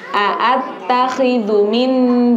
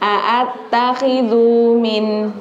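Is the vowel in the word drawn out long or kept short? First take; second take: short; long. First: The vowel is kept short and not dragged. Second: The vowel is dragged out and sounds long. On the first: The speaker calls it right. "Padahal itu pendek" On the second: The speaker calls it wrong. "Dengarnya kepanjang panjang kan jadinya"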